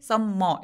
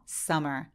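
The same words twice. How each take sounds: First: The M sound is doubled, said twice. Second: The M sound is said only once. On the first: The speaker calls it wrong. "M이 두 개 있다고 해서 똑같이 summer 이렇게 소리 내지 않고" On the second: The speaker calls it right. "하나만 발음해서"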